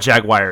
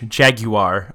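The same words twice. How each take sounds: First: The word is said in a Southern American way. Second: The word is said in a British way. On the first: "is that Southern? I think that's Southern" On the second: "I like the British Jaguar"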